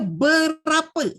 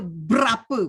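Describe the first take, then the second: First: The first syllable is said fully with its vowel. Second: The first vowel is dropped, making a br cluster. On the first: The speaker calls it right. "Dia berapa" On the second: The speaker calls it wrong. "Tidak ada berapa, bra tu tak ada"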